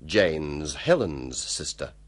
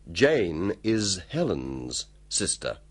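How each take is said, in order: First: It is said fast, conversationally. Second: It is said slowly and carefully.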